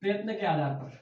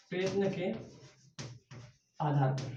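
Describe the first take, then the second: First: Said in the usual way. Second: Broken into slow soft chunks; "प्रयत्न के" then a pause, then "आधार पर", both soft and slow; slow dictation. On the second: Shown as a demonstration. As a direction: dictate it for students to copy.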